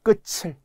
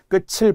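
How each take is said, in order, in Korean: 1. 끝의 받침은 'ch' 소리로 연음돼요. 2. 끝의 받침은 't' 소리로 연음돼요. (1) "이 발음을 틀 때가 많아요" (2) "끝을 봐야죠"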